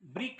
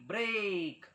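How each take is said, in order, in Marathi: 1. स्वर 'ee' किंवा लहान 'i' सारखा वाजतो. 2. स्वर 'ay' सारखा वाजतो. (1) "ब्रिक नाही"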